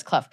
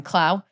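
First: Clough said as cluff, rhyming with rough; corrected name. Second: Clough said as clow, rhyming with cow; misread name. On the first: Retold or imitated. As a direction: say Clough the right way, cluff, through a laugh. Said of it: "No, it's Clough". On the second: Shown as a demonstration. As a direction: say Clough like plough, the naive misreading. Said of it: "it looks like Clough".

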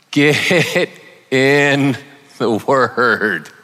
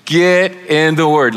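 First: Slow, laughing "get in the word". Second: 「Get」を強く言い切る; firm "Get in the Word", stress on "Get". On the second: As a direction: punch "Get" and drive it home. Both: Shown as a demonstration. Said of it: "one of my points is gonna be".

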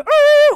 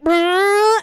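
First: Very high, very loud crash buzz; car crash noise. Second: High, loud lip-buzz engine rev; schoolboy making car noises. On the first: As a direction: blast the lip-buzz like a toy car smashing. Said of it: "and then he would go ... when he would crash". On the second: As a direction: buzz your lips like a kid's toy car. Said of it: "drive around school like a fucking car". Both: Retold or imitated.

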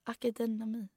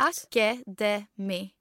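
First: "Akademi" garbled as "akedenami", an extra syllable slipped in; wrong pronunciation. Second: "Akademi" spelled out very slowly, a-ka-de-mi, each syllable clear; careful slow pronunciation. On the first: Telling her friend about the bookshop, mispronouncing "Akademi". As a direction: stumble on "Akademi", adding a syllable. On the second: Retrying the bookshop name, pronouncing "Akademi" slowly. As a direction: say "Akademi" very slowly to get it right. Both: Shown as a demonstration.

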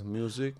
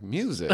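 First: Put-on quiet Mexican-accented answer. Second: Said in the usual way. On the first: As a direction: imitate the driver's Mexican accent, very softly. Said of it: "the quintessential Mexican accent".

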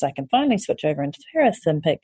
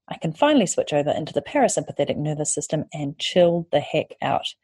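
First: Fast, tumbling take of the line; quick rushed first try. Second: Said in the usual way. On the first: Acted. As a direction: rush through it in relief. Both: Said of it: "repeated line".

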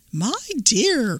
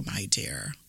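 First: Sugary fake granny call, higher; wolf posing as granny. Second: Menacing whispered my dear. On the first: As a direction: call sweetly like a disguised wolf. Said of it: "and called out". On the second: Acted. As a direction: breathe my dear as a hushed whisper. Wolf disguised as granny.

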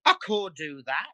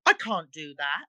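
First: "can't" turned into a long "core". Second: Said in the usual way. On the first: Shown as a demonstration. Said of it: "Core means can't". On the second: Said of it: "instead of saying".

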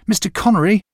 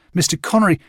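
First: Second call, higher and more urgent. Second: First call after a man walking away, raised. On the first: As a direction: shout his name, he's getting too far. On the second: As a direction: call out to get his attention. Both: A narrator's reading. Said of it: "I called to him".

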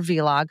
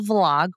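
First: "vlog" said as vee-log; alternative pronunciation. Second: Said in the usual way. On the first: Shown as a demonstration. Host unsure how to say "vlog", offering vee-log. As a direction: give "vlog" two syllables, vee then log. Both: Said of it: "however you say it".

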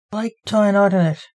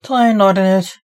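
First: Said in the usual way. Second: Louder shout, half-yelled back. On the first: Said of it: "Blake heard in his head". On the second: A narrator's reading. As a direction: call it back loud and firm. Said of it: "Dante shouted back".

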